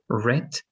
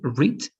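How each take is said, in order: First: The vowel is short, like 'red'. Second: The vowel is long, like 'reed'. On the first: It is a past form. "The two past forms are read" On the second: It is the present or base form. "In only in the base form is read"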